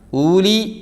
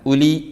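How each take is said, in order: First: The first vowel is drawn out long. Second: The first vowel is kept short. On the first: The speaker calls it wrong. "ഊലി വേണ്ട" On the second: The speaker calls it right. "ഉലി മതി"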